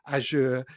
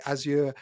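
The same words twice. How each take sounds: First: Azure pronounced like the s in measure; Azure as AZH-er. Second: Azure pronounced AZ-yer, crisp z then y. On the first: Host offers another variant, Azure as AZH-er. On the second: Host asks guest how it's said, Azure as AZ-yer. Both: Shown as a demonstration. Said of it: "I hear people say Azure".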